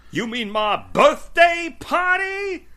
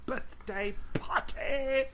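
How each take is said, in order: First: High, loud, drawn-out shout in a put-on English accent; Seth's mock shout. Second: Put-on Seth's English accent. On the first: Cohost imitates the promo line from tonight's episode, mock English-accented shout. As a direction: shout it slowly, hamming up every word. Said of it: "he, like, shouts it out". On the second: Cohost shows how he shouts it out, mock English accent, held back. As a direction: imitate an English-accented shout at normal volume. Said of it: "sort of like an English accent".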